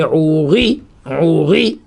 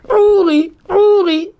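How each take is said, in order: First: "Ouri" slow and low, weighted "ri"; stress on the last syllable. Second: "Ouri" with high, emphatic "Ou"; stress on the first syllable. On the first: Teacher shows the accent is well placed, "Ouri" stressed on "ri". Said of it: "l'accent tonique". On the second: Teacher shows the later pair, "Ouri" stressed on "Ou". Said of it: "Au début". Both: Shown as a demonstration.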